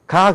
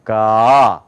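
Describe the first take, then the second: First: Short "가", opened once; plain Korean "가"; Korean-style 가. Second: Low, long "가" from the throat; American two-step "가", drawn out; American-style 가. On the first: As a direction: say "가" briskly at the front of the mouth. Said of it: "근데 우리는". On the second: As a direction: swell "가" open slowly and low. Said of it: "미국 사람들 그렇게 하라고요". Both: Shown as a demonstration.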